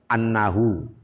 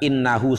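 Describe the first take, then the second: First: The word begins with an 'a' vowel. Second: The word begins with an 'i' vowel. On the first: It links to the previous sentence as a reason. "beliau membaca annahu" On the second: It starts a new statement meaning indeed. "bukan innahu seperti kita"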